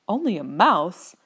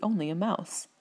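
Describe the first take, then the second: First: Slow, affronted echo; indignant. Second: Said in the usual way. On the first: A narrator's reading. Mouse queen offended at being called only a mouse, indignant. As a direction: draw it out as an offended little creature. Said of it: "cried the animal indignantly".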